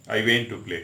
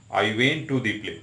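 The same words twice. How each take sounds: First: Said in the usual way. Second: I went to the play said very slowly, the added "the" kept clear; slow, with the article. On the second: Shown as a demonstration. Teacher showing students that the article changes the meaning, slowly. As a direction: stretch out I went to the play so the "the" stands out. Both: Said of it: "मतलब मैं drama देखने theatre गया".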